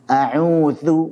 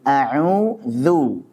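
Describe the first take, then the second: First: The last syllable is short, not drawn out. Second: The last syllable is drawn out slightly. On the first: "kalaupun tanpa narik antum sudah dapat tipisnya" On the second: "Kalau ana cenderung agak tarik sedikit"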